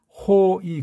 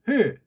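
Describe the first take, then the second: First: The vowels are split into two syllables. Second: The vowels are merged into one syllable. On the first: The speaker calls it wrong. "그렇게 읽으면 안 돼요" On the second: The speaker calls it right. "호의가 아니라 회"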